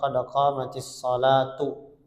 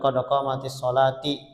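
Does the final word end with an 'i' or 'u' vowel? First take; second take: u; i. First: The final word ends in a 'u' vowel. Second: The final word ends in an 'i' vowel. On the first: The speaker calls it right. "tapi yang benar" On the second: The speaker calls it wrong. "ada yang mengatakan"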